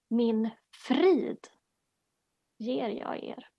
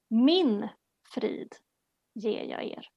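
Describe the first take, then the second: First: The stress is on the word 'frid'. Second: The stress is on the word 'Min'.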